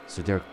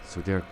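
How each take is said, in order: Both takes have the same delivery.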